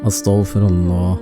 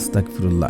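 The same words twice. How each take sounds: First: The word is said with every sound fully articulated. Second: The word is said clipped and run together. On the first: The speaker calls it right. "আপনারা পড়বেন" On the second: The speaker calls it wrong. "এটা এভাবে পড়বেন না"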